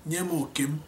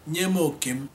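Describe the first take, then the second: The two takes are said the same way.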